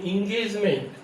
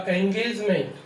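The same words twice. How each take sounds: First: इंगेजमेंट begun with a short i; "इंगेजमेंट" said ingejment; Indian style engagement. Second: एंगेजमेंट begun with an open e; "एंगेजमेंट" with e at the start; English engagement. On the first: Teacher imitates how Indians say इंगेजमेंट. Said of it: "हम बोल देते हैं इंगेजमेंट". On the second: Teacher models English engagement starting with e. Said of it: "English में होगा एंगेजमेंट". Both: Shown as a demonstration.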